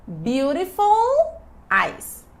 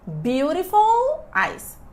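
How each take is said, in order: Both takes have the same delivery.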